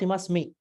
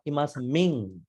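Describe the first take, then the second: First: The word ends without a nasal sound. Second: The word ends with a nasal sound. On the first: The speaker calls it wrong. "not imas me. ... You don't pronounce this part" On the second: The speaker calls it right. "There's a nasal sound"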